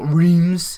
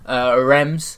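First: The word does not sound like 'Ren' plus M. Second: The word sounds like 'Ren' with an M. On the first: The speaker calls it wrong. "not Reims" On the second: The speaker calls it right. "A bit like Ren, but with an M"

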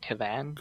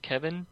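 First: The second syllable sounds like 'van'. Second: The second syllable sounds like 'vin'. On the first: This follows the written spelling. "it's spelled like K-E-V-A-N, so it looks more like Kevan" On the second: This is how it is heard in the show. "I've heard him pronounce it Kevin"

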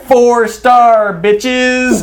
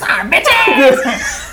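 First: It is said in his normal voice. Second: It imitates the Asian guy from Hangover.

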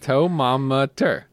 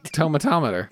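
First: One syllable is dropped, giving four syllables. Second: All five syllables are said in full. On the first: The speaker calls it wrong. "You're dropping a syllable" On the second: The speaker calls it right. "You're right"

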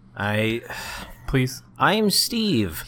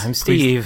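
First: It is said in a put-on, scary voice. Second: It is said in a plain, natural voice.

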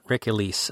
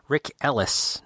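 First: The surname is said like 'Elise'. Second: The surname is said like 'Ellis'. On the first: The speaker calls it wrong. "I keep on saying Rick Elise" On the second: The speaker calls it right. "Rick Ellis, not Rick Elise"

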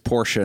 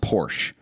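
First: The word is said with two syllables. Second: The word is said with one syllable. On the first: The speaker calls it right. "We're just acknowledging this is two syllables. It's Porsche" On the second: The speaker calls it wrong. "not Porsche"

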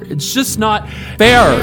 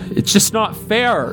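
First: The voice is loud and booming. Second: The voice sounds small and childlike. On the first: "to overpowering loud, just booming" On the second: "Her voice goes from little child"

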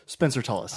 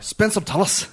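First: It is said in his plain accent. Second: It is said in a Scottish accent.

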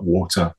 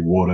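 First: The T in the middle is crisp. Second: The T in the middle is soft. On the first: "not water" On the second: "My T's have become a little softer. I can say water"

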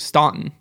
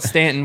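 First: The name is said the Northern way. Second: The name is said the Southern local way. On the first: The speaker calls it right. "the Northerners always pronounced it the correct way" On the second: The speaker calls it wrong. "We're going to call it Stanton, which is wrong"

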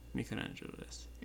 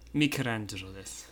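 First: It is said quietly, with little volume. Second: It is said loudly, with more volume. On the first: The speaker calls it wrong. "合ってるけど、ちょっと小さい。" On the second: The speaker calls it right. "That's perfect"

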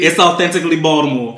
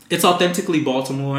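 First: Baltimore is said with a d sound. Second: Baltimore is said with a clear t sound. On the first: The speaker calls it right. "Put a D in there, please" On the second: The speaker calls it wrong.

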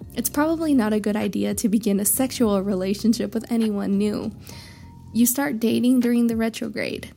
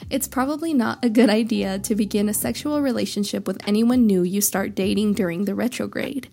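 First: There is a break after 'anyone new'. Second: It flows without a break after 'anyone new'.

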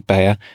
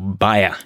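First: The name is said the American way. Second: The name is said the non-American way. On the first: "the Americans say Bayer" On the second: "Bayer is the appropriate way to say it"

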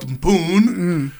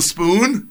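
First: The word is said like a young child's attempt. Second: The word is said the ordinary adult way. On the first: This is how a small child first tries the word. The speaker calls it wrong. "your first attempt to say spoon might have come out spoon" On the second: This is how the word is meant to sound. The speaker calls it right. "instead of spoon"

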